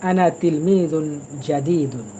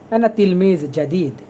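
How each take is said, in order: First: The final -un endings are clearly pronounced. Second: The final -un endings are dropped entirely. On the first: A careful reading for beginners. "এই জন্য আমি একটু ভেঙে ভেঙে পড়ছি।" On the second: The way native Arabs usually say it. "শেষের এইগুলো ওরা কখনো উচ্চারণ করবে না। ওরা বলবে"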